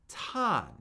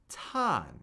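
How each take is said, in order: First: The pitch starts high and falls steadily. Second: The pitch starts high and falls steadily.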